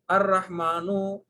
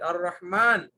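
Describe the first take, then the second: First: The word ends with a short vowel. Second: The word ends on a bare consonant. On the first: The speaker calls it wrong. "not like that" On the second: The speaker calls it right. "you should not say the harakas"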